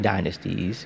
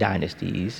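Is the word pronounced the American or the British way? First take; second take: American; American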